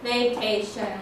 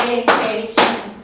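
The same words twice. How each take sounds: First: Said in the usual way. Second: Vacation said slow and loud, syllable by syllable; counting syllables. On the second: Shown as a demonstration. Teacher counts syllables for the class, slow and loud. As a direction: beat out Va-ca-tion one syllable at a time. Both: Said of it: "Let's count it out".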